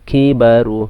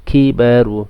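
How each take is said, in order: The two takes are said the same way.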